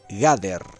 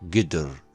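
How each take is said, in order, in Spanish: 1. La primera vocal es una a plena. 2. La primera vocal es una schwa corta y neutra. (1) "una pronunciación en hebreo clásico medieval sería así" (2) "quedaría con la vocal schwa así"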